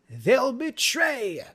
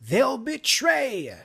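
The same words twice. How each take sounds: Both takes have the same delivery.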